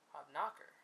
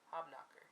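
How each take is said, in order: First: The stress falls on a different syllable. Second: The stress falls where most versions put it.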